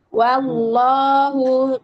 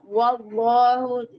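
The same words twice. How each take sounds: First: The w sound is light and thin. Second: The w sound is heavy and thick. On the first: The speaker calls it right. "tapi waw tetap tipis ya" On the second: The speaker calls it wrong. "jadi jangan wallahu"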